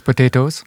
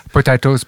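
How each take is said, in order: First: "potatoes" said po-TAY-toes, with an ay vowel and a light rise; "potatoes" the American way, ay in the middle; "potatoes" as po-TAY-toes, the contrasting second take. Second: "Potatoes" said po-TAH-toes, with an open ah; "Potatoes" with the broad ah vowel, like the British way; "Potatoes" as po-TAH-toes, first of two takes. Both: Shown as a demonstration. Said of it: "tomato, tomato".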